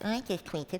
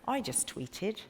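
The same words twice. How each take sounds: First: It is said in a plain, normal voice. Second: It is said in a silly, put-on voice.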